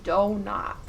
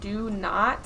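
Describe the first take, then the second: First: The two words blend together, sounding like donut. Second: The two words are said clearly and separately. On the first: "I basically say donut exactly" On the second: "instead of saying do not"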